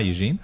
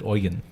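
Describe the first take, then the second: First: The name is said the English way. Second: The name is said the German way.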